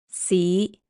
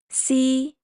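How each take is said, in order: First: The syllable is said in Cantonese tone five. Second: The syllable is said in Cantonese tone one. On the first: "Tone five" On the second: "Tone one"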